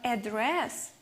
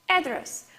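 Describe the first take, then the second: First: The stress is on the last syllable. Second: The stress is on the first syllable. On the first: It names the act of speaking to someone directly. "it means to talk with someone directly" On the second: It names the place where someone lives. "where she lives"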